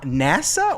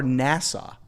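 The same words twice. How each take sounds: First: "nasa" said the usual way, NASS-uh; NASA pronunciation. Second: "nasa" said like Nassau, NASS-aw; Nassau-like pronunciation. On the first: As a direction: say "nasa" as the space agency's name. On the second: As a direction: end "nasa" on an aw sound, like Nassau. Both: Shown as a demonstration. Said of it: "I don't think it's like N A S S A U".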